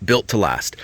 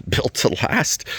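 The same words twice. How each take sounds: First: Said in the usual way. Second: Mocking echo of the slogan, pitched up with a laugh; sarcastic. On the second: Shown as a demonstration. Mocking the hybrid's built-to-last claim, sarcastic with a laugh. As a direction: say it with a scoffing laugh, raised.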